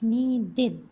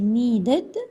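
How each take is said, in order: First: The ending is pronounced like short 'id'. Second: The ending is pronounced like 'ed'. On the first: The speaker calls it right. "it's needed. Id" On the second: The speaker calls it wrong. "Don't say needed"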